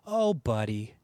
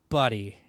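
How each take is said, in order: First: Low, drawn-out "Oh, buddy" with a sympathetic sag; a low, pitying "Oh, buddy"; condescending buddy. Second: A low, kind "Buddy"; empathetic buddy. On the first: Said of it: "not as condescending as I make it sound". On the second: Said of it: "it's actually empathetic". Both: Shown as a demonstration.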